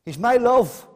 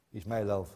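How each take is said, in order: First: Loud and high, ringing out the verse; proclaimed. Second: Much softer and lower, almost to himself; hushed echo. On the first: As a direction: call it out to the whole church. Quoting the bride, then echoing. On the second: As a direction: let it fall into a tender hush. Quiet echo of the quote. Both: Acted.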